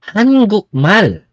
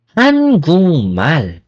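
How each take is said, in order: First: 한국말 with a hard k, quick and higher; 한국말 with a clipped k stop; wrong pronunciation. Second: 한국말 with ng before m; 한국말 said hangungmal; correct pronunciation. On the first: Teacher showing the wrong way to say it. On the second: Teacher modelling the right Korean sound. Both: Shown as a demonstration. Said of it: "It's not".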